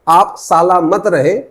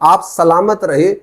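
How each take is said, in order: First: The word is split into 'saala' and 'mat'. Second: The word 'salamat' is said as one word. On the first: The speaker calls it wrong. "जो सलामत था वो बन गया साला मत में" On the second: The speaker calls it right. "जो स्पीकर की ओरिजिनल लाइन थी"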